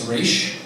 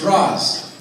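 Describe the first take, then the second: First: The name ends with a sh sound. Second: The name ends with an s sound. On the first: This is how another character on the show says it. "in the most recent episode, says Raish" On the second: This is the pronunciation established earlier on the show. "it has been established ... that it's Ra's"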